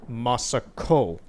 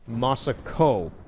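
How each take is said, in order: No difference in how they are said.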